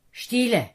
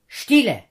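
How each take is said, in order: First: A louder final word that settles the storm; firm command. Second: A single loud word of command; commanding shout. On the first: Jesus ends his command to the storm, loud and firm. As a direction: close the order with authority. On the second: Jesus commands the wind and waves with a loud shout. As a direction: order the storm to be still. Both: A narrator's reading. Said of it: "mit lauter Stimme am Wind und der Welle befohlen".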